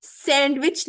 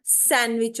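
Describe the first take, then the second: First: सैंडविच with the d clearly sounded; wrong pronunciation. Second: सैंडविच said as san-wich, no d; correct pronunciation. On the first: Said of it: "सैंडविच नहीं होता". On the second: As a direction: drop the d in सैंडविच. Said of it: "सैंडविच होता है". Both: Shown as a demonstration.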